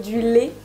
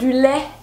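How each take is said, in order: First: The vowel in lait is closed, like é. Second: The vowel in lait is open, like è. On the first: This is how it is said in the south of France. "au lieu de du lait" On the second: This is how it is said in other regions, such as Paris. "dans d'autres régions françaises, euh, pour ne pas nommer Paris, on va dire du lait"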